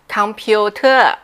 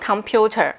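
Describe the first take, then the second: First: It is said with a heavy Thai accent. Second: It is said with an English pronunciation. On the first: "那泰语呢就叫computer，它就是有一个这样子很口音的这个发音" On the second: "英文叫computer"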